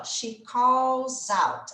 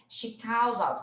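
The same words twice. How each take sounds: First: "She calls out" said very slowly, each word apart; slow, separated classroom model. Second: "She calls out" run together as one phrase, calls linking into out; connected natural phrasing; linked up. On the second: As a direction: blend "She calls out" smoothly at normal pace. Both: Shown as a demonstration. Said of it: "Aqui a gente já vai juntar na hora de falar".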